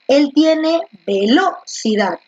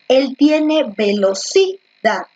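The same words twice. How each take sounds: First: The stress is on the second syllable, lo. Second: The stress is on the third syllable, ci.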